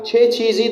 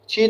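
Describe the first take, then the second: First: Both syllables of the full form are said. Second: It is shortened to one syllable, chi. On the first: This is the full written form. "पूरा नहीं बोला जाता" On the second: This is how it is said in everyday speech. "छे चीज़ी की जगह पे छी बोला जाता है"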